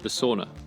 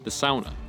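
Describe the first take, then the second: First: It is said with an English-style pronunciation. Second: It is said with a Finnish-style pronunciation. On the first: The speaker calls it wrong. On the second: The speaker calls it right.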